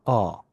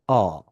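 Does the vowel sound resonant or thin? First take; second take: resonant; resonant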